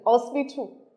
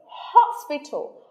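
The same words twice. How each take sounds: First: The word begins without an h sound. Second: The word begins with an h sound. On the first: The speaker calls it wrong. "our local accent or intonation" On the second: The speaker calls it right. "Without the H, no. It's hospital"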